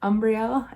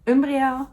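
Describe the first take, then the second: First: The name is pronounced in an Americanized way. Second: The name is pronounced in its original Dutch way.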